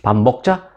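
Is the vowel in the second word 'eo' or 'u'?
eo. The second word is said with an 'eo' vowel. This is the standard form. "먹으로 읽으면 표준어"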